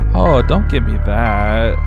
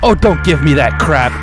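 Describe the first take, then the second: First: It is said in a gentle, tender tone. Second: It is said in a harsh, rough tone.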